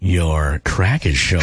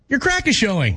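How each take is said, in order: First: It is said in a flirty tone. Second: It is said in a supportive tone.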